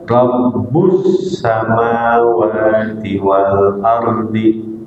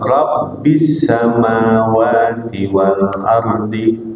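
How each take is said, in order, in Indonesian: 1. Kata pertama berakhir dengan vokal u. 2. Kata pertama berakhir dengan vokal i. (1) "boleh dibaca war rafi rafa rabbu" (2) "boleh dibaca jar kasrah rabbi"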